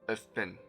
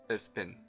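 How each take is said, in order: Both takes have the same delivery.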